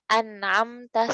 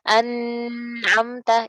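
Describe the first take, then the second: First: The n has only a brief, natural nasal hum. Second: The n has a full, drawn-out nasal hum. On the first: The speaker calls it right. "dengan gunnah asli saja, secara alami aja" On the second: The speaker calls it wrong. "Contoh gunnah yang sempurna adalah gini. An'amta itu salah ya"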